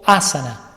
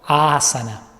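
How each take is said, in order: First: The first vowel is short but stressed. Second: The first vowel is held twice as long. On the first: "como si tuviera un tilde o un acento en la primera A" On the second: "esa A va a durar el doble"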